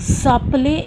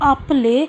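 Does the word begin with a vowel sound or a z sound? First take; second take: z sound; vowel sound. First: The word begins with a linking z sound. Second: The word begins directly with a vowel sound. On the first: "S and A when joins make Z sound" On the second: "instead of appele"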